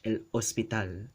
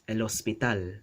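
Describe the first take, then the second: First: A glottal stop separates the two words. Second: The two words run together without a break. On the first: This is the Philippine Spanish way. "But in Philippine Spanish, el hospital... There's a stop there" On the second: This is the standard Spanish way. "in standard Spanish, it's el hospital... You don't hear the stop"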